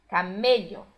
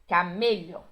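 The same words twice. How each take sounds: The two takes are said the same way.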